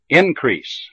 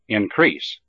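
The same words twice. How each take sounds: First: The stress is on the first syllable. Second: The stress is on the second syllable. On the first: It is used as a noun. "the first syllable of the noun has primary stress" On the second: It is used as a verb. "the second syllable of the verb has primary stress"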